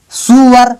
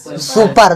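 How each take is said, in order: First: "सुअर" with a w glide in place of p; "सुअर", su-war with no p; wrong pronunciation. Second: "सुपर" with a clear p; falling, firm-p "सुपर"; correct pronunciation. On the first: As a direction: misread super as "सुअर". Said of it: "सुअर नहीं बोलना". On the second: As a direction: say "सुपर" as su-par, no w glide. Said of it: "क्या है?". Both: Shown as a demonstration.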